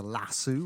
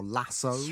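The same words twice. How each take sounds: First: "lasso" ending in an oo sound; "lasso" as lass-oo; British pronunciation. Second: "lasso" ending in an oh sound; "lasso" as lass-oh; American pronunciation. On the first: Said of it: "what we say in this country". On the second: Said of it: "as you Americans say". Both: Shown as a demonstration.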